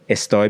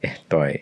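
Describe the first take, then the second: First: It is said with a clear s sound. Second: It is said with a breathy h sound.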